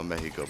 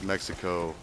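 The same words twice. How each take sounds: First: It is said with a Spanish pronunciation. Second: It is said with an English pronunciation. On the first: The speaker is trying to speak Spanish. "unless you're trying to speak Spanish. Then it's like" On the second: This is the ordinary local way to say it. "but really it's"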